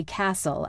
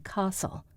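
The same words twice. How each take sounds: First: Said in the usual way. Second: "castle" with a long British ah; British pronunciation. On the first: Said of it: "I can't say castle". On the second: Shown as a demonstration. Tutor's reminder for the play, British "castle" with broad ah. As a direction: say "castle" as KAH-sul, softly. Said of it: "I must say castle".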